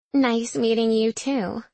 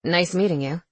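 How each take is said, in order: First: Slow, teasing flirt on "Nice"; saucy minx voice. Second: Said in the usual way. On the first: A narrator's reading. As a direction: drawl "Nice meeting you too" like a saucy minx. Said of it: "she says in a saucy minx voice".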